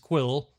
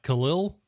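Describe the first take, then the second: First: The name sounds like the word quill. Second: The name sounds like Khalil. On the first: The speaker calls it right. "So his name is Quill" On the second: The speaker calls it wrong. "I've been pr- pronouncing it wrong this entire time because I was like Khalil"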